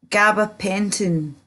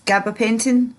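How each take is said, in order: First: Gabapentin said slowly, each syllable apart; slow careful pronunciation. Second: Said in the usual way. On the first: Shown as a demonstration. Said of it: "they're called".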